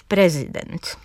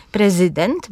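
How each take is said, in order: First: "prezydent" stressed pre-ZY-dent; stress middle syllable. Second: "Prezydent" stressed PRE-zy-dent; stress first syllable. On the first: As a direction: lean on ZY in "prezydent". („prezydent” z akcentem na ZY) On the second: („Prezydent” z akcentem na PRE) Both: Shown as a demonstration. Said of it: "różnie je akcentując, żeby państwo usłyszeli".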